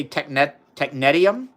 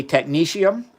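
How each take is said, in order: First: "technetium" said tek-NET-ee-um; alternative pronunciation. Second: Said in the usual way. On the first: Shown as a demonstration. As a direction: say "technetium" with a short NET and a tee-um ending. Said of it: "I think some people say". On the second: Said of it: "I say technetium".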